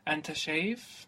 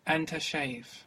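First: It is said as a question, rising. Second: It is said as a statement, falling.

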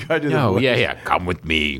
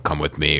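First: It is said in a put-on impersonating voice. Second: It is said in the speaker's ordinary voice.

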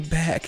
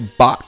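First: The vowel sounds like the one in 'cat'. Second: The vowel sounds like the one in 'cot'. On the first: This is the usual way to say it. "Y'all don't say back" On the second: This is how people from Georgia say it. "Y'all say bock"

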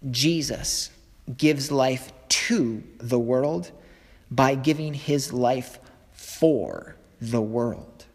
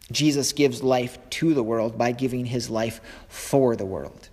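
First: It is said at a slower, deliberate pace. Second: It is said at a normal, quicker pace.

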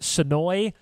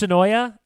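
First: The name ends on the 'noy' syllable. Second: The name has an extra syllable after 'noy'. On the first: This is how the locals say it. "I'm told it's pronounced Sonoy" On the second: This is the speaker's own habitual way of saying it. "I'm going to go with Sonoya"

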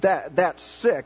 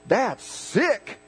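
First: It sounds disgusted and repelled. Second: It sounds admiring and impressed. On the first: Something is gross. "Ooh, he just threw up" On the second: Something is great. "if you say it like this, ... then that's good"

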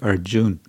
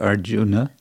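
First: The name ends on a consonant, no vowel. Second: The name ends with a final vowel sound. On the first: It follows the modern everyday pronunciation. "more like modern Hindi" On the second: It follows the classical pronunciation. "more like Sanskrit pronunciation"

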